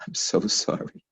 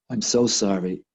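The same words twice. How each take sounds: First: Hushed, whispery remorse; whispered apology. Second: Said in the usual way. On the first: Retold or imitated.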